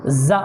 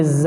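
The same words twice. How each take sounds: First: ز cut short with a jolt; jerked zaa. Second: ز with held buzz and unjerked vowel; smooth firm zaa. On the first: Teacher shows the wrong zaa, jerked. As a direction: snap ز off abruptly. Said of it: "جھٹکے کے ساتھ بھی نہیں پڑھیں گے". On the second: Teacher corrects to proper zaa, smooth and firm. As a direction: let ز ring without a jolt. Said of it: "بلکہ". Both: Shown as a demonstration.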